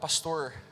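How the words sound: It is said in a Paraná accent.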